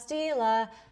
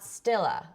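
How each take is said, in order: First: The first syllable sounds like 'steel'. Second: The first syllable sounds like 'still'. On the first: The speaker calls it right. "So Stila, Stila" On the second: The speaker calls it wrong. "not Stilla"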